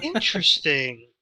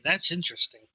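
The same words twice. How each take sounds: First: Ambiguous, lingering reaction; insincere-sounding interest. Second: Quicker, sincere "that's interesting"; earnest, straightforward reaction; genuine interest. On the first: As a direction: stretch out "Interesting" so it could pass for sarcasm. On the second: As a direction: insist that you really do mean it. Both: Real, not acted. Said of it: "Like, no, genuinely".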